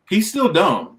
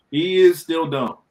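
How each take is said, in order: First: Said in the usual way. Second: "is" stressed, slow emphatic restatement; insist, drawing out "is". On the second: Real, not acted. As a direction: lean firmly on "is", slowly.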